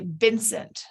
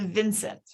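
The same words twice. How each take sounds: First: "Vincent" with B in place of V; Vincent as Bincent. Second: Said in the usual way. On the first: Retold or imitated. Recalling one kid's substitution, "Vincent" begun with B. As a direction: say "Vincent" starting with a B. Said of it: "one kid that would say". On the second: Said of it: "instead of Vincent".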